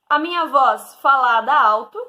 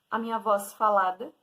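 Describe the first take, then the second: First: It is said somewhat louder than normal speech. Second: It is said at normal speaking volume.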